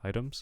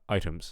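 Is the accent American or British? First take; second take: American; British. First: It is said in an American accent. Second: It is said in a British accent. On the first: "if you're going for an American accent ... We want items" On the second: "if you're going for uh, some British accents"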